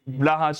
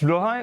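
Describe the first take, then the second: First: The name is said with an anglicized vowel. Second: The name is said with the Swedish vowel. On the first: This version is used because it sounds funnier. "Blahaj is just so much funnier" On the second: This is the correct pronunciation. "No, it's Blohaj"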